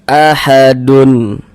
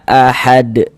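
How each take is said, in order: First: The word ends with an added -un vowel ending. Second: The word stops on the final d sound. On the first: The speaker calls it wrong. "Jangan dibaca ahadun" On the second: The speaker calls it right. "kita baca ahad"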